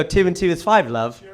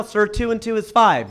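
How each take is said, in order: First: Put-on British accent, dropping to an offhand "love". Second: Said in the usual way. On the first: Shown as a demonstration. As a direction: say it like a confident Brit. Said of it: "everything sounds right in that accent". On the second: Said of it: "If I say to you right now".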